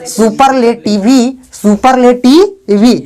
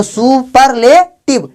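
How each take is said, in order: First: सुपरलेटिवी said slowly with an added "ee" at the end; mock misreading of सुपरलेटिवी, final E sounded; wrongly voiced final E. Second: सुपरलेटिव slowly in four beats, ending on a closed v; measured syllables, सुपरलेटिव cut off at v; silent final E. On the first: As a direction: stretch the "vee" ending of सुपरलेटिवी. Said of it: "अगर ई silent नहीं रहेगा तो इसको ये पढ़ेंगे". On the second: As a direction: sound out सु-पर-ले-टिव with no "ee" after the v. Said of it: "पर ई silent है ना". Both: Shown as a demonstration.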